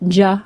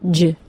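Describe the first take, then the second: First: A short vowel follows the consonant sound. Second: The consonant sound is said with no vowel. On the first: The speaker calls it wrong. "The sounds aren't ch and j" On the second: The speaker calls it right. "but simply ch and j"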